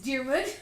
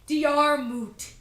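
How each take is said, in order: First: The name ends with a d sound. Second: The name ends with a t sound. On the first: This is how the name is really said. The speaker calls it right. "It's Diarmid" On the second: This is how others said the name. The speaker calls it wrong. "No, it's not Diarmut"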